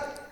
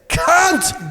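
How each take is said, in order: First: The word is said short and quick. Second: The word is drawn out slowly and enunciated. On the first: The speaker calls it wrong. "don't say it quickly" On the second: The speaker calls it right. "You have to like a simmer"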